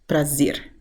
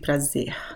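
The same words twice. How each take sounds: First: The final R is a clear R sound. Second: The final R sounds like a breathy H. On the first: "they would pronounce the R at the end of words as ar" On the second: "people would just use the H sound"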